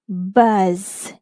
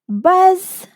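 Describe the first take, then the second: First: The word is said slowly and drawn out. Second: The word is said quickly in one go.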